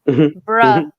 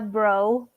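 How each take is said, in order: First: The word ends with an 'uh' vowel. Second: The word ends with an 'oh' vowel. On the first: The speaker calls it right. "I have to say bruh because of the boys" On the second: The speaker calls it wrong. "I'm sorry. Let me get with the ver- with the with the times"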